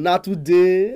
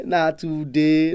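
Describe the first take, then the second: First: Said in the usual way. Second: Na today stretched very slowly and lower; slowed, lower repeat of na today; slow, drawn-out emphasis. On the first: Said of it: "repeated phrase". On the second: Shown as a demonstration. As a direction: drag out na today for weight. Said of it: "repeated, drawn out".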